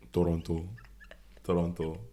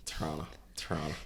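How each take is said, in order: First: "Toronto" with the second t sounded; careful pronunciation. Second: "Toronto" reduced to Tronna, second t dropped; local pronunciation. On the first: Co-host trying out the other's version, "Toronto" fully articulated. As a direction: say "Toronto" as To-ron-to, all three syllables full. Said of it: "It's not Toronto". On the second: Co-host sounding like a local, "Toronto" said as Tronna. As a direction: swallow "Toronto" into two syllables, Tronna. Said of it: "Is that the right way to say Toronto?". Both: Shown as a demonstration.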